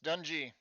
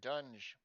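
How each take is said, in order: First: The name ends with an added ee vowel. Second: The name ends without any added vowel. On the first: This is how the written name looks. The speaker calls it wrong. "I keep saying Dungy because that's what it looks like to me" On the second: This is how the makers say the name. The speaker calls it right. "they pronounce it Dunge"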